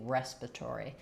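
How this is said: It is said in an American accent. "and we say respiratory"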